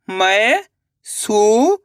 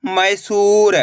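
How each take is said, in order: First: मैसूर stretched very slowly, rising; drawn-out sounding out. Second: Said in the usual way. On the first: Shown as a demonstration. Teacher sounding out मैसूर slowly for pupils. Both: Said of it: "अब आगे देखिए".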